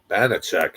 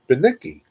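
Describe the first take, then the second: First: The name ends with a 'chak' sound. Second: The name ends with an 'ee' sound. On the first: The speaker calls it wrong. "He butchers your name all the time" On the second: The speaker calls it right. "it's right there"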